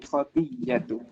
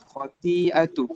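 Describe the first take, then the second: First: The middle consonant is a doubled y. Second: The middle consonant is a glottal stop.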